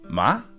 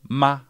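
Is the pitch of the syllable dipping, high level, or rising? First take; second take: rising; high level. First: The pitch rises from middle to high. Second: The pitch stays high and level throughout. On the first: "Second tone goes from your midpoint... all the way up to first tone level" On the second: "it's essentially the highest point in your vocal range"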